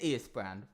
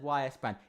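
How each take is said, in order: First: The name begins with an 'ee' sound. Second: The name begins with a 'why' sound. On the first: The speaker calls it right. "It is E S Brand" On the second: The speaker calls it wrong. "I've said Y S Brand"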